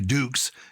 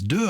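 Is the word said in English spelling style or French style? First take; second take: English spelling; French. First: It is read as spelled, ending in a 'ks' sound. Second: It is said with the French vowel, no consonant ending.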